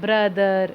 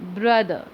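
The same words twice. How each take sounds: First: The final r is pronounced clearly and strongly. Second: The final r is barely pronounced, very faint. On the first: The speaker calls it wrong. "ब्रदर नहीं बोलते" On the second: The speaker calls it right. "जो आर है वो बड़ा ही अंदर ही अंदर हल्का सा बोलते हैं"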